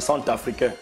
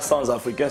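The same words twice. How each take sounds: First: The words are joined with a normal linking sound. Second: The words are joined with an odd linking sound. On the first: The speaker calls it right. "100 s'écrit en français C-E-N-T" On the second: The speaker calls it wrong. "vous avez la sale tendance de faire des liaisons bizarres"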